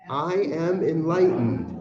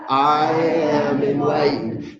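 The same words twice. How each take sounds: First: It is said in a plain, ordinary way. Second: It is said earnestly, with strong conviction.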